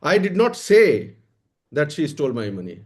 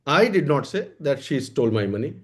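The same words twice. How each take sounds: First: The word "say" carries the main stress. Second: The word "I" carries the main stress. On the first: It was stolen, but I never said so. "चुराया तो है पर मैंने कहा नहीं है।" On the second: Someone else said it, not me. "इसका क्या मतलब हुआ? कि हमने नहीं कहा है।"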